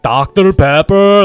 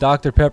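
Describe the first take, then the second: First: Said in a heavy imitated foreign accent. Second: Said in the speaker's own ordinary accent. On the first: Someone else said it in an unexpected way. "like Arnold Schwarzenegger" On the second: The speaker says it the usual way. "I said"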